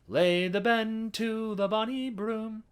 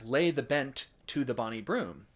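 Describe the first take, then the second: First: The two T sounds merge into one. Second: The T of bent is sounded separately.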